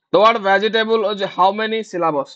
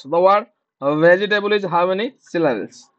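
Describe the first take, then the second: First: Very slow, every word spaced; slow dictation. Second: Slower dictation. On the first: Teacher dictating the vegetable question to students. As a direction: read it out slowly for writing. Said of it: "teacher dictating a question". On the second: Teacher repeating the question for students, even slower. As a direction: repeat it slowly one more time. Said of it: "repeat of the dictation". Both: Shown as a demonstration.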